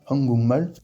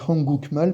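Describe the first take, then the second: First: An ng sound comes before the m. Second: A k sound comes before the m. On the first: The speaker calls it right. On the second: The speaker calls it wrong.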